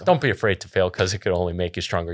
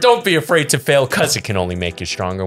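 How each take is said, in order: First: It is said in a casual, offhand way. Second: It is said firmly, with strong conviction.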